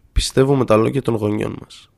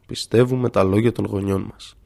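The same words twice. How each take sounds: First: A lightly slowed, thoughtful repeat; mildly drawn out, weighing each word; very slowly. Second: Slow and softer, fading; slowed repeat sinking to a quieter voice; very slowly, softer. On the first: Professor slowly repeating the student's point, understated slowness. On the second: Professor repeating it to himself, slow and softer. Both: A narrator's reading. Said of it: "Πολύ αργά επαναλαμβάνει".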